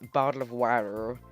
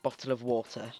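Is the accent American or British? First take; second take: American; British. First: It is said in an American accent. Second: It is said in a strong British accent. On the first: "they were like bottle of water, or like the American accent" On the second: "my really strong British bottle of water"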